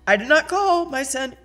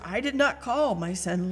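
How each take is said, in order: First: It is said in an irritated, impatient tone. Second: It is said in a calm, neutral tone. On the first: The speaker is annoyed at being disturbed again. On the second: A plain answer with no annoyance.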